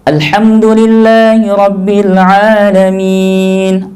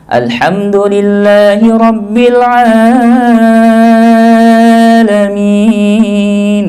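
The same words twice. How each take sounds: First: The long vowel in 'Alamin' is held briefly. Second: The long vowel in 'Alamin' is stretched out. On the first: The speaker calls it right. "Al-Alamin dua harokat" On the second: The speaker calls it wrong. "dia tambah ... itu lebih ya"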